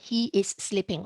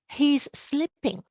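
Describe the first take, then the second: First: The words he and is are said separately. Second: He and is merge into one short syllable. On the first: "Instead of" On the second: "I just shorten it"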